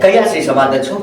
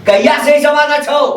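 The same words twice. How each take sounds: First: Low, stern interrogation; stern questioning. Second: Higher, insistent interrogation; angry demand. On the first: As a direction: question the culprit in a low, controlled voice. Angry questioning, first low take. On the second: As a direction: raise the pitch and demand an answer. Same question repeated, escalating. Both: Acted.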